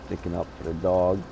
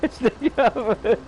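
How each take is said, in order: First: Said in the usual way. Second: Laughing. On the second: Retold or imitated. Repeats it through laughter.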